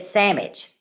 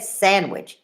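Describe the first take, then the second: First: Sandwich as "sammich", no d sound; Pennsylvania sandwich. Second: Sandwich with the d said clearly, "sand-wich"; full sandwich. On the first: Retold or imitated. Imitating friend Marie's "sammich". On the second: Shown as a demonstration. Correcting herself with a full "sand-wich". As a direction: say sandwich in full, every sound. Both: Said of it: "She never said sandwich".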